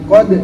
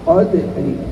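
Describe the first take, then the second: First: The final consonant is cut off and barely heard. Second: The final consonant ends with a faint short vowel. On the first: The speaker calls it wrong. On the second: The speaker calls it right. "Harus itu kalau mau cara raum"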